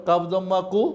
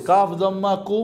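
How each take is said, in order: First: কাফ দম্মা কু prompted for students to echo, ending in a rise on কু; repeat after me. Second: কাফ দম্মা কু said clearly as the model to repeat; teacher models কাফ দম্মা কু letter by letter; teacher's model. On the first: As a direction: invite the class to say কাফ দম্মা কু back. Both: Shown as a demonstration. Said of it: "বলেন কাফ দম্মা কু".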